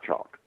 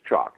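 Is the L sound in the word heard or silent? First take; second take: heard; silent. First: The L in the word is pronounced. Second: The L in the word is silent. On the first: The speaker calls it wrong. "You pronounce the L. It's not L" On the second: The speaker calls it right. "It's chalk, Just like you write on the blackboard"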